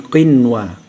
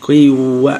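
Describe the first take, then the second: First: The n sound before w is pronounced clearly. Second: The n sound before w is dropped. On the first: The speaker calls it right. "Sama ini qinwa gitu ya" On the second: The speaker calls it wrong. "Jadi bukan qiwanu, qiwa gitu ya"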